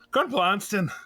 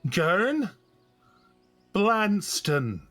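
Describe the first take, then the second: First: The name is said at normal speed. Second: The name is said slowly and drawn out.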